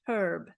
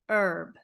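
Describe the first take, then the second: First: The word starts with an audible h sound. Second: The word starts with no h sound. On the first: Some English dialects say it this way. The speaker calls it wrong. "In American English, we do not say herb" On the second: American English says it this way. The speaker calls it right. "We say herb"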